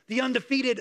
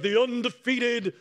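First: It is said in a normal speaking voice. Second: It is said in a boxing announcer voice.

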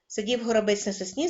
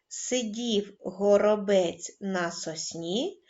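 First: It is read at a very fast pace. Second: It is read at a calm, slow pace. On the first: "вимовляйте скоромовку дуже швидко" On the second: "Починаємо читати спокійно"

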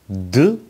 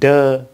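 First: The word is said on a raised, high pitch. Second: The word is said on a flat, level pitch. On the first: The speaker calls it right. "mình nâng cái giọng của mình lên" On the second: The speaker calls it wrong. "đơ nó là hoàn toàn tiếng tiếng Việt rồi"

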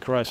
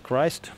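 First: The word sounds like 'cries', without a final t. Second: The word sounds like 'Christ', with a final t. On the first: The speaker calls it wrong. "Jesus не Christ" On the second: The speaker calls it right. "а Christ"

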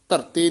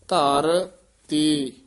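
First: It is said as one joined word. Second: It is said as two separate words. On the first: The speaker calls it wrong. "ਨਹੀਂ ਕਹਿਣਾ" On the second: The speaker calls it right. "ਵੱਖਰਾ ਕਰਾਇਆ ਜਾਂਦਾ ਹੈ"

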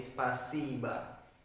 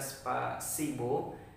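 First: The final vowel is a reduced 'ah' sound. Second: The final vowel is a full 'oh' sound. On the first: The speaker calls it right. "karena dia di sana terletak penekanan dengan kalimat tersebut maka menjadi spasiba" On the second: The speaker calls it wrong. "maka kita akan terkesan seperti membaca spasibo"

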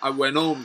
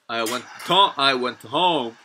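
First: The t in went is dropped. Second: The t in went is clearly pronounced. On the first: "NT에서 T 탈락이 나타나면서" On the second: "Standard English로 하면"

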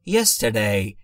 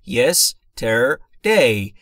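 First: It is said quickly and smoothly, r barely heard. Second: It is said slowly, syllable by syllable. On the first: "وقتی که خیلی روون تلفظش کنم" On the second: "اگر خیلی بخوام شمرده تلفظش کنم"

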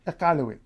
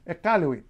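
No difference in how they are said.

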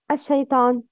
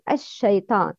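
First: The sh sound is cut off short. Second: The sh sound is held and spread out. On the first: The speaker calls it wrong. "not ash-shaytan" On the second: The speaker calls it right. "It's ash-tafashi"

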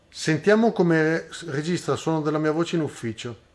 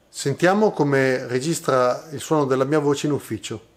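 First: Recorded at the lowest gain, minus five decibels. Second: Recorded at a middle gain, zero decibels. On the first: "impostando il guadagno del preamplificatore della camera a meno cinque decibel" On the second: "impostando il livello del guadagno della camera a zero decibel"

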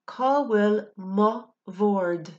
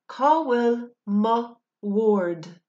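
First: The word 'bhord' begins with a V sound. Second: The word 'bhord' begins with a W sound. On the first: "with a V sound" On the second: "instead of a W sound"

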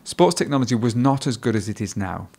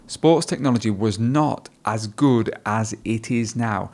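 First: The sentence is said quickly, with the words linked together. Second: The sentence is said at a slower pace.

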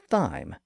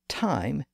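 First: The word begins with a TH sound. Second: The word begins with a plain T sound. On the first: The speaker calls it wrong. "and not thyme" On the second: The speaker calls it right. "is pronounced time"

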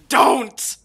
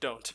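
First: It is said loudly and forcefully. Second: It is said quietly and flatly.

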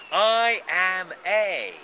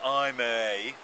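First: The voice sounds strong, upbeat and confident. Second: The voice sounds low, hesitant and deflated. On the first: The speaker thinks highly of himself. The speaker calls it right. "Or do you pump yourself up?" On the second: The speaker thinks little of himself. The speaker calls it wrong. "Not good"

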